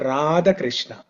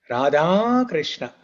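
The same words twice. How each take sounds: First: The first name ends in a short vowel. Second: The first name ends in a long vowel. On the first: The speaker calls it wrong. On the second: The speaker calls it right.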